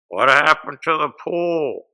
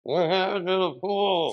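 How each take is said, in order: First: Loud, slow heckle from the audience; heckling shout. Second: Higher, louder repeat of the heckle; higher heckling shout. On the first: Comic heckles the union boss, slow loud heckle. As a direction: call it out slowly to the stage. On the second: Heckler repeats the question louder, insistent shout. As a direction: yell it again, pushing harder. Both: Retold or imitated. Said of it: "He looks at me and he goes".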